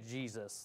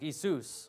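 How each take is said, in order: First: The name begins with a J sound. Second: The name begins with a Y sound. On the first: "with the J sound" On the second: "You would pronounce that with a Y sound"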